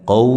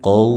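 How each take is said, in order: No difference in how they are said.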